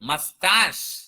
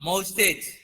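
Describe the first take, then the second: First: It starts with 'muh' and ends in 'stash'. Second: It starts with 'mow' and ends in 'stage'. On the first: The speaker calls it right. "You have to say మస్టాష్" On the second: The speaker calls it wrong. "It's not మౌస్టేజ్"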